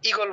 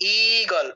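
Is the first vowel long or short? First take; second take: short; long. First: The first vowel is short and quick. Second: The first vowel is drawn out long. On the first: "দুটাকেই কিন্তু হ্রস্ব উচ্চারণ করছি, তাড়াতাড়ি উচ্চারণ করছি" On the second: "এরকম হওয়ার কথা ছিল"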